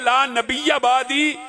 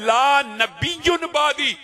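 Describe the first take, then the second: First: The word nabi ends with an 'a' sound. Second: The word nabi ends with an 'un' sound. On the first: There is no prophet after me. "ये जो रावी ने यहां पे जबर लगाई है" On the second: A prophet named La will come after me. "मुब्तदा खबर बनाते हुए कहता है"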